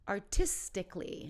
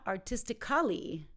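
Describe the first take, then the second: First: The ending is said without a separate 'al' syllable. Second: The ending is said with a full 'al' syllable. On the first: The speaker calls it right. "So we take out that last A" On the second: The speaker calls it wrong.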